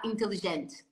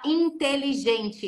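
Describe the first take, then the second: First: Vowels are reduced and the syllables run together. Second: Vowels are open and each syllable is separated. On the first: "eles vão falar inteligente" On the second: "a gente fala inteligente"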